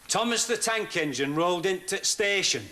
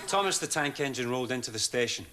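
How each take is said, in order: First: It is said in a put-on Welsh-style accent. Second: It is said in the speaker's plain accent.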